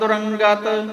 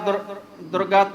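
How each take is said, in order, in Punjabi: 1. ਸ਼ਬਦ ਵਿੱਚ 'g' ਤੋਂ ਪਹਿਲਾਂ ਨਾਸਿਕ ਧੁਨੀ ਹੈ। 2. ਸ਼ਬਦ ਵਿੱਚ 'g' ਤੋਂ ਪਹਿਲਾਂ ਕੋਈ ਨਾਸਿਕ ਧੁਨੀ ਨਹੀਂ ਹੈ। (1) "ਰਾਰੇ ਤੇ ਟਿੱਪੀ ਲਾਇਓ ਜੀ।" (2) "ਰਾਰੇ ਤੇ ਟਿੱਪੀ ਲਾਉਣੀ ਪੈਣੀ।"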